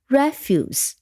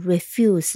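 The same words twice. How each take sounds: First: The stress is on the first syllable. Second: The stress is on the second syllable.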